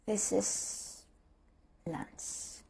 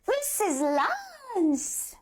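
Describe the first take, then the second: First: It sounds let down and deflated. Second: It sounds forceful and mad. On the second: "try natin maging angry"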